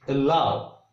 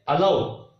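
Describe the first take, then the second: First: Allow with a tiny schwa first; correct pronunciation. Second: Allow with a full 'a' at the start; common mispronunciation. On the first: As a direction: stress the second syllable of allow. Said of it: "Stress is on L". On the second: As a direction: open allow with a clear ah. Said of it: "We say allow, but it is allow". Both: Shown as a demonstration.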